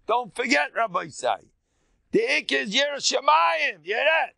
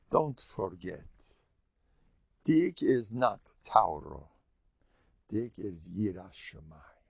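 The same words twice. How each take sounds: First: High, loud rebbe's warning; a rabbi booming a reminder at him; emphatic shout. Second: Hushed reminder. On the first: Rabbi voiced emphatically, retold. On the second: Rabbi quietly reminding him. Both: Retold or imitated.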